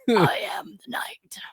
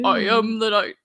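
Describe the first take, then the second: First: It is said in a raspy Batman voice. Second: It is said in a Superman voice.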